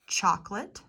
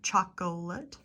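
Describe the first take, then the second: First: The middle vowel is dropped, two syllables. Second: All three syllables are pronounced, vowel kept. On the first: The speaker calls it right. "Chocolate instead of" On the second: The speaker calls it wrong. "instead of chocolate"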